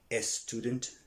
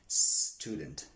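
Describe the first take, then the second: First: An extra vowel sound comes before the s. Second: The word starts directly with the s sound. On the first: The speaker calls it wrong. "Don't say" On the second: The speaker calls it right.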